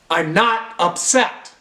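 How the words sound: It is said in a tense, upset tone. The speaker actually is upset despite the words.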